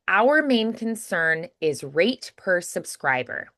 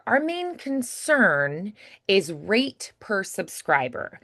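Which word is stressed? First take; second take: our; concern. First: The stress is on our. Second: The stress is on concern.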